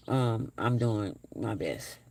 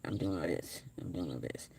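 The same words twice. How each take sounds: First: Said in the usual way. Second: Low-energy murmur. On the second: Real, not acted. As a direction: drop much lower and softer, tired and worn out. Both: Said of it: "You probably can hear it in my voice".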